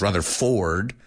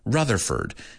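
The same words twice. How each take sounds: First: The last syllable has a full 'or' vowel. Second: The last syllable has a weak, reduced vowel. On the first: The speaker calls it wrong. "No es Rutherford" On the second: The speaker calls it right. "La O se convierte en una E. ... sino Rutherford"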